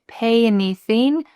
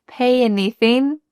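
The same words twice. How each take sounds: Both takes have the same delivery.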